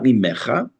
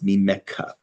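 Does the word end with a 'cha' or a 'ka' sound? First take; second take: cha; ka. First: The final syllable is a raspy 'cha' sound. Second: The final syllable is a hard 'ka' sound. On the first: The speaker calls it wrong. "So it's not mimecha" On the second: The speaker calls it right. "it's mimeka"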